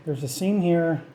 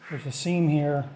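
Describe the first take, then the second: No difference in how they are said.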